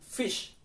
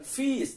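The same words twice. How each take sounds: First: The vowel is said short. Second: The vowel is said long. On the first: The speaker calls it right. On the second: The speaker calls it wrong.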